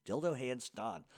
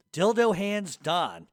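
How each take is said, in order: First: Said in the usual way. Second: Slow disgusted read. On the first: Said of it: "what the fuck is he doing". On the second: Shown as a demonstration. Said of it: "getting progressively more disgusting".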